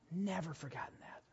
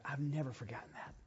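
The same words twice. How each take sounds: First: Much softer repeat, almost to himself; soft echo. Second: Said in the usual way. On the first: Real, not acted. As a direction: let it fall away quietly. Repeats the line to let it sink in.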